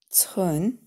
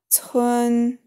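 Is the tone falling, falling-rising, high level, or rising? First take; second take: rising; high level. First: The pitch rises from mid to high. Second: The pitch stays high and level. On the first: "второй тон" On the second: "Первый тон"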